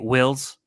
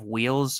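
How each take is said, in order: First: The vowel is a short i sound. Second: The vowel is a long ee sound. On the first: "you'll just do like a, a short I sound" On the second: "instead of wheels"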